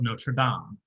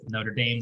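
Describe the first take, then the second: First: It is said with a French-style pronunciation. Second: It is said with an American pronunciation. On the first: It names the movie title. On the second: It names the university.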